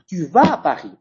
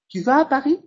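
First: The pitch falls at the end, as an exclamation. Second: The pitch rises at the end, as a question.

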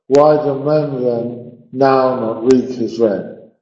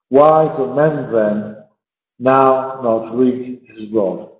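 First: It is read quickly in a regular beat. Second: It is read slowly with every syllable stressed. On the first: "We could read that line as crushed" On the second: "we have to almost slow the sentence down to a stop"

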